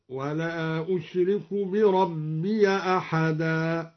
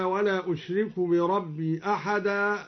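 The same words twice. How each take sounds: First: Slow chant, بربي said bi-rabbiya; open ya. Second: Said in the usual way. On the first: Shown as a demonstration. Teacher shows the joined reading, بربي as bi-rabbiya. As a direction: recite slowly, adding an a after the ya of بربي. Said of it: "فتح الياء وصلا".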